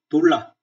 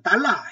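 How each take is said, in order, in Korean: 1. 첫 모음은 "oh" 소리가 나요. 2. 첫 모음은 "ah" 소리가 나요. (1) "영어식 표현을 그대로 합니다" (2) "달러 이렇게 얘기하면 못 알아듣거든요"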